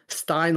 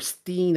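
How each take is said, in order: First: The vowel sounds like 'eye', rhyming with Frankenstein. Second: The vowel sounds like 'ee', rhyming with scene. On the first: "like Frankenstein" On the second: "as in scene"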